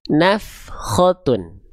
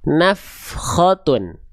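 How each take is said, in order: No difference in how they are said.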